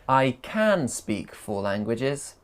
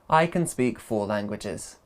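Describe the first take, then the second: First: 'Can' is said with a full vowel. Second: 'Can' is reduced to a weak 'kun'.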